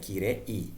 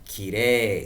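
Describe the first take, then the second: First: It ends with e followed by a separate i. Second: It ends with a single long e sound. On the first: The speaker calls it wrong. "terbacanya juga tidak yumei dan kirei" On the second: The speaker calls it right. "jadinya vokal panjang e. Maka terbacanya yume dan kire"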